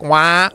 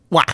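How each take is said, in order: First: It is said slowly. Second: It is said fast.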